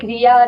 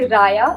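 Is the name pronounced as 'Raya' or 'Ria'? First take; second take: Ria; Raya. First: The name is pronounced like 'Ria'. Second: The name is pronounced like 'Raya'. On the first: The speaker calls it wrong. "I was like Ria" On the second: The speaker calls it right. "It's actually Raya"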